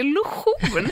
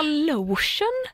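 First: "lotion" said as lo-SCHON, stressed at the end; Swedish-style "lotion". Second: "Lotion" as English LOH-shun; English-style "lotion". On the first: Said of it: "att ni uttalar det lotion". ("lotion" uttalat lo-schon) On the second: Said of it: "vad heter det då". (engelskt uttal av "Lotion") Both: Retold or imitated.

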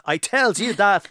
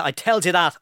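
First: Drawn out, weighty I tells you that; slow repeat of "I tells you that"; slow emphatic. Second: Said in the usual way. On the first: Shown as a demonstration. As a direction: lean on "tells", slow and falling.

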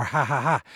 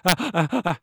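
First: Ha ha ha pushed out on each exhale; breathing-out laugh. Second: Ah ah alternating breath in and breath out; in-and-out laugh. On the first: Showing the audience adult egressive laughter, exhaled ha ha. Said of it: "I'm breathing out". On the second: Showing babies' ingressive laughter, ah ah in and out. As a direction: laugh like a baby, gasping in between. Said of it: "that's in and out". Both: Shown as a demonstration.

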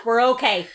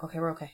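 First: Louder, brighter relief; loud relieved exclaim. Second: Softly laughing, half to herself; quiet laugh. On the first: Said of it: "and then I yawned". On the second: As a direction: chuckle it out under the breath. Relief after yawning back. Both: Real, not acted.

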